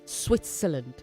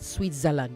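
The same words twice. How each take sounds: First: The z is pronounced as an s sound. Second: The z is pronounced as a z sound. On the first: The speaker calls it right. "the Z is S. Switzerland" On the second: The speaker calls it wrong. "not Switzerland"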